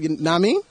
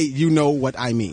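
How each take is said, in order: First: The middle words merge into one short word. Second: Every word is said out in full. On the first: The speaker calls it right. "We say, nah mean. It's one word" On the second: The speaker calls it wrong. "We don't say"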